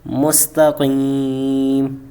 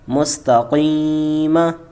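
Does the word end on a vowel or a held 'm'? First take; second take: held m; vowel. First: The long 'ee' is stretched; it ends on 'm'. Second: It ends with a short 'a' vowel. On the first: "आगे वक्फ़, ... तीन अलिफ़ की मिकदार खींचा" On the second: "मीम ज़बर मा, मुस्तक़ीमा"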